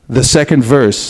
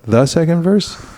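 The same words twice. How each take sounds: First: The voice falls at the end like a statement. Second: The voice rises at the end like a question. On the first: The speaker sounds definite and authoritative. The speaker calls it right. "Just say the second verse" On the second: The speaker sounds unsure. The speaker calls it wrong. "don't put a question mark at the end like"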